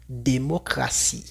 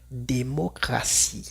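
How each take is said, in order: First: The consonant before -ie sounds like s. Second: The same.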